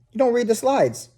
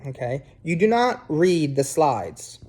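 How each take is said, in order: First: Spike "don't" so it can't be missed; emphatic don't. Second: Okay, you do not read the slides, with "do" pressed hard and slow; firm stress on do. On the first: Teacher repeating the rule to students, "don't" pitched high and punched. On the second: Teacher warning students about slides, "do" stressed slowly. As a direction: lean on "do" like a rule. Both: Shown as a demonstration. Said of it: "Very simple".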